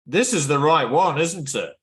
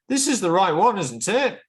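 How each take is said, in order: First: The pitch falls on the final 'it'. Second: The pitch rises on the final 'it'. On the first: The speaker is only seeking confirmation. "voice goes down on it, that's looking for confirmation" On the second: The speaker is really asking for information. "If the pitch goes up on it, they're asking for information"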